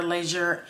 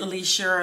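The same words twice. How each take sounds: First: "Leisure" said LEH-zhur; short e in "Leisure"; alternative pronunciation. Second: "Leisure" said LEE-zhur; long ee in "Leisure"; alternative pronunciation. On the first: Unsure of the artist's name, "Leisure" as LEH-zhur. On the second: Unsure of the artist's name, "Leisure" as LEE-zhur. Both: Shown as a demonstration. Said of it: "is it Leisure or Leisure?".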